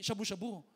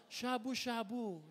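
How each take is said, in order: First: "shabu-shabu" said quickly, the wrong way; wrong pronunciation. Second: Slow, drawn-out "shabu-shabu"; correct pronunciation. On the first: Pastor showing the congregation the wrong term, quick mispronunciation. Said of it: "Kailangan tama yung term, hindi". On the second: Pastor correcting the term for the congregation, slow careful pronunciation. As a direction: stretch out each half of "shabu-shabu" deliberately. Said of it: "Kailangan tama yung term". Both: Shown as a demonstration.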